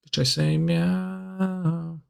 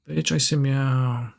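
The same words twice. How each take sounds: First: Chanted, slow, higher, drawn-out meow at the end; sing-song chant. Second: Said in the usual way. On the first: Pretend. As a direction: croon it lazily, stretching meow. Slow sing-song meme line.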